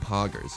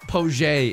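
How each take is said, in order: First: The word is said with a plain English pronunciation. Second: The word is said with a French-style pronunciation.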